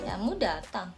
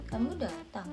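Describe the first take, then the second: First: It is said in a sarcastic tone. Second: It is said in a sarcastic tone.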